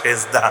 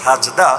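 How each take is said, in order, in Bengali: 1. প্রথম স্বরধ্বনিটি 'e' ধ্বনি। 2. প্রথম স্বরধ্বনিটি খোলা 'a' ধ্বনি। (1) "বাংলায় এসে হয়ে গেছে সেজদা" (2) "মূল উচ্চারণ হলো সাজদা"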